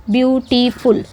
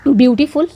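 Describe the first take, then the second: First: ब्यूटीफुल drawn out as ब्यू, टी, फुल; three separate syllables. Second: Said in the usual way. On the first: Shown as a demonstration. Teacher shows students the three syllables of ब्यूटीफुल, syllable by syllable. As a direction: count out ब्यूटीफुल in three even beats. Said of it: "three syllable मिल रहा है". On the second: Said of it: "जैसे कि आप बोल सकते हो".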